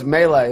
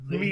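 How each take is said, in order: First: The first syllable sounds like 'may'. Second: The first syllable sounds like 'mee'. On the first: The speaker calls it right. "Brian's like, no, it's melee" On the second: The speaker calls it wrong. "I always said mealy"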